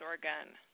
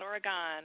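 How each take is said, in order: First: The final syllable sounds like 'gun'. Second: The final syllable does not sound like 'gun'. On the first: The speaker calls it right. "you got to pronounce it with a G-U-N at the end" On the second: The speaker calls it wrong. "It's not Oregon"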